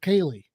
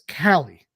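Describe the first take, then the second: First: The name begins with a 'Kay' sound. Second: The name begins with a 'Cal' sound. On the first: The speaker calls it wrong. "He pronounces it Kaylee" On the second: The speaker calls it right. "that name is Callie"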